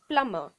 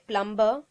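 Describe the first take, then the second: First: No B sound is pronounced after the M. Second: A B sound is pronounced after the M. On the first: The speaker calls it right. "B is silent" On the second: The speaker calls it wrong. "So you won't say plumber"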